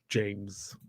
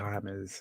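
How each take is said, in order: First: The J at the start is pronounced. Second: The J at the start is silent. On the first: The speaker calls it wrong. "not James" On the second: The speaker calls it right. "It's actually James, it's a silent J"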